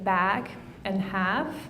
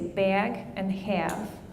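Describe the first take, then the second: First: The a vowel is low and unraised. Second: The a vowel is raised, Midwest style.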